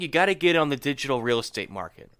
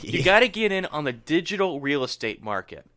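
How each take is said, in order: First: It is said at normal, quicker speed. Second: It is said slowly and deliberately.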